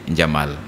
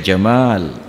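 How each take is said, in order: First: The vowel after the m is short. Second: The vowel after the m is long. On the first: It means camel. The speaker calls it wrong. "Jamal tanpa alif itu artinya unta" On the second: It is a beautiful name. The speaker calls it right. "berirama di ujungnya"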